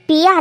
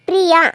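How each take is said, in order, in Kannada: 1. ಹೆಸರನ್ನು 'r' ಶಬ್ದವಿಲ್ಲದೆ ಹೇಳಲಾಗುತ್ತದೆ. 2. ಹೆಸರನ್ನು 'r' ಶಬ್ದದೊಂದಿಗೆ ಹೇಳಲಾಗುತ್ತದೆ. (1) "ಅದು ಪಿಯಾ ಅಲ್ಲ"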